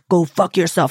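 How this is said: It is said in an angry tone.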